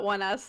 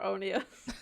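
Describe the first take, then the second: First: The name sounds like the two words one us. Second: The name sounds like one word, oh-nee-us. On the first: The speaker calls it right. "on air, we never said it wrong" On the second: The speaker calls it wrong. "behind the scenes, we always thought they were Onias"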